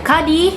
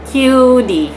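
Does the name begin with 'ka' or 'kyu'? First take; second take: ka; kyu. First: The name starts with a plain 'ka' sound. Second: The name starts with a 'kyu' sound. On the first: The speaker calls it wrong. "salah manggil nama aku" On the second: The speaker calls it right. "nama aku itu cara bacanya Q D"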